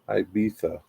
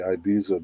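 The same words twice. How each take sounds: First: It is said with a Spanish pronunciation. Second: It is said with an American pronunciation. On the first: "It's a Spanish pronunciation" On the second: "I say Ibiza because I'm American"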